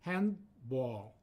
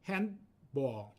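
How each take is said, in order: First: It is said with two syllables. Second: It is said with two syllables.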